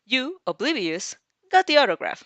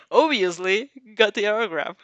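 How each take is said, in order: First: Reads the wrong word, higher and louder; a playful misreading aloud; misread, amused. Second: Corrects herself through a laugh; giggly self-correction. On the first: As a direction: stumbles brightly over the misreading. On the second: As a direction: fixes the word, still giggling. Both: Real, not acted. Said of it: "No, oblivious".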